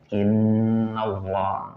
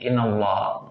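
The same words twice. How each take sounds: First: The nasal n sound is held long. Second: The nasal n sound is cut short. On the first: The speaker calls it right. "harus dibaca dengan gunnah dengung. Makanya agak lama bacanya" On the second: The speaker calls it wrong. "nggak boleh"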